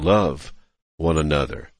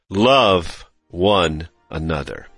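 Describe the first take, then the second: First: It is said with some more strength. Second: It is said with the most strength.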